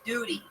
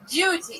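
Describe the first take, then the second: First: The vowel is a plain oo, no y-glide. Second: The vowel has a y-glide before oo. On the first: The speaker calls it wrong. "it's not jury duty" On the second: The speaker calls it right. "The liquid U"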